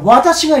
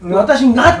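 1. 'ga' の g は、硬くて鼻にかからない音です。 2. 'ga' の g は、柔らかくて鼻にかかった音です。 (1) "その時絶対がっていうのはがにはならない" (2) "私がって言っちゃったら、女子に力がつくわけないんだから"

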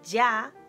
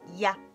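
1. El sonido y es fuerte y enérgico. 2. El sonido y es rápido y suave. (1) "Seguramente pronunciáis más fuerte como ya" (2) "más rápido ya"

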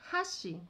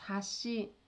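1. A primeira sílaba 'ha' é dita forte. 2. A primeira sílaba 'ha' é dita fraca. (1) "com ha mais forte" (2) "a ponte é hashi, com i, mas como se estivesse para baixo"

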